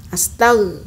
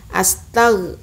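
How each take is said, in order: Both takes have the same delivery.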